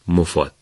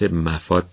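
First: The first syllable is said as 'mo'. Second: The first syllable is said as 'ma'. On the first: The speaker calls it right. "میم ضمه داره، یعنی مو، مفاد" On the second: The speaker calls it wrong. "کم نمیشنویم نمیبینیم که این واژه رو به صورت مفاد تلفظ میکنن"

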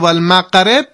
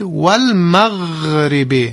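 First: The consonant is a closed, stopped q sound. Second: The consonant is a stretched, continuous gh sound. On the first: The speaker calls it wrong. "اون با قاف گفتید" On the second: The speaker calls it right. "اما غین تو مخرجش یه کشش داره"

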